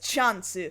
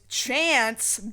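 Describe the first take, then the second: First: It is said the Japanese way, as chansu. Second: It is said with an American English accent. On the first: It is the adopted Japanese loan word. "they've already adopted the word chance as chansu" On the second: It is the original English word slipped in. "he says that English word very English-like, very American English-like"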